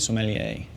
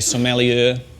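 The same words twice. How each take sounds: First: It is said with an American accent. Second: It is said with a New Zealand accent. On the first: "I like to say it the American way" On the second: "In New Zealand, we might say sommelier, and that's fine"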